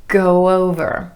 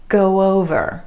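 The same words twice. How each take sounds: First: A soft w sound glides between the words. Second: The same.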